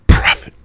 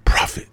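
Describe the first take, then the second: First: Loud call. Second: Whisper. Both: Shown as a demonstration.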